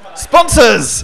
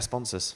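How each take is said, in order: First: The word is said with lively excitement. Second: The word is said flatly, without excitement. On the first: The speaker calls it right. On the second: The speaker calls it wrong.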